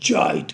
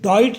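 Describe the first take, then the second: First: The word begins with a j sound. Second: The word begins with a plain d sound. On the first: The speaker calls it right. "जॉइट कहना है, जे की sound है" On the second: The speaker calls it wrong. "इसे डॉइट नहीं कहना"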